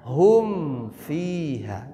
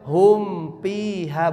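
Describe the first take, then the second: First: The word after hum begins with an f sound. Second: The word after hum begins with a p sound. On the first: The speaker calls it right. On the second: The speaker calls it wrong. "tidak boleh hum fiha, bukan pi"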